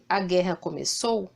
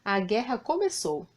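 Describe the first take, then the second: First: "A guerra começou" with the tune rising at the end, like a question; questioning rise on "começou". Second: "a guerra começou" with a firm falling end on "começou"; falling tune on "começou"; as a certainty. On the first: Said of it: "disse o ponto de interrogação, é apenas uma pergunta". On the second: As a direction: state "a guerra começou" as settled fact. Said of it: "disse o ponto de exclamação, é uma certeza". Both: Shown as a demonstration.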